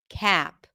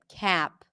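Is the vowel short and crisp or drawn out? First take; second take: drawn out; drawn out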